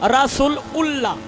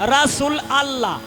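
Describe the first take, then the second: First: The ending is pronounced as a separate ullah. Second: The ending is pronounced as a separate allah. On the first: "কেউ কয় উল্লাহ" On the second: "কেউ কয় আল্লাহ"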